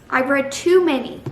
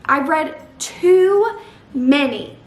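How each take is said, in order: First: Said in the usual way. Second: TOO drawn out, high and loud; slow emphatic build on too many; stress on TOO. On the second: Real, not acted. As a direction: stretch out the word too in exasperation. Emphatic complaint, then repeated.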